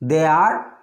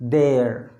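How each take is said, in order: First: Two separate words are said in full. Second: The two words are merged into one syllable.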